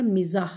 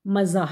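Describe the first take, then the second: First: मिज़ाह with i first; correct pronunciation. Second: मज़ाह with a first; wrong pronunciation. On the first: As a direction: teach मिज़ाह, mi-zāh. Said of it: "सही तलफ़ुज़ है". (सही उच्चारण मिज़ाह) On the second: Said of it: "मज़ाह लफ्ज़ नहीं होता". (गलत उच्चारण मज़ाह) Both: Shown as a demonstration.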